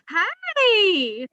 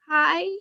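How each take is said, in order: First: It sounds like calling out for attention. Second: It sounds gentle and concerned about someone.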